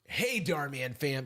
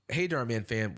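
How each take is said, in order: First: It is said in a put-on, imitating voice. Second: It is said in the speaker's natural voice.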